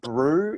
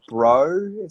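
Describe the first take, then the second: First: The vowel sounds like 'ooh'. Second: The vowel sounds like 'oh'. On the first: "it sounds more like brew" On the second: "instead of bro"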